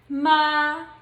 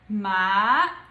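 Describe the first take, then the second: First: It is said in the first tone. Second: It is said in the second tone. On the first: "the pronunciation of the first tone would be" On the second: "the second tone would be"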